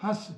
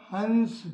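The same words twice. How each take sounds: First: हंस with a nasalised vowel and no separate n; हंस said as "hãs", the n not sounded; anunasik pronunciation. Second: हंस with a full, distinct n sound before the s; हंस said as "hans", the n clearly held; anusvara pronunciation. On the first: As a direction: let the vowel of हंस go through the nose, straight into s. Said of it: "अनुनासिक चंद्र बिंदु लगे हुए". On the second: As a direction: sound out the nasal consonant in हंस. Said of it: "अनुस्वार और अनुनासिक वाले शब्दों के उच्चारण में थोड़ा सा अंतर होता है". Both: Shown as a demonstration.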